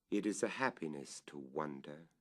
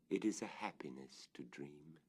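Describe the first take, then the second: First: Said in the usual way. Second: Breathy whisper, softer than the line before; hushed, dreamlike whisper. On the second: A narrator's reading. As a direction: let the line fall to a hush, as if dreaming aloud. Whispered echo of the previous line.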